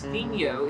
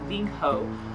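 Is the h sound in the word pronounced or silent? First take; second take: silent; pronounced. First: The h sound is left silent. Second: The h sound is clearly pronounced. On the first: The speaker calls it right. "I realized that it's Vinho" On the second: The speaker calls it wrong. "it's not Vinho"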